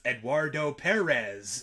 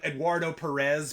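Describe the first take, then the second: First: The name is said with Spanish sounds. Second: The name is said with English sounds. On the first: This is the correct way to say it. The speaker calls it right. "but it's" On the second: This is how most people say it. The speaker calls it wrong. "most people would call him"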